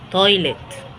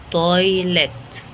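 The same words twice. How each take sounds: First: Said in the usual way. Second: "تويلت" very slow, stretched by syllable; sounded out. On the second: Shown as a demonstration. Teacher introducing "تويلت" to learners, sounded out very slowly.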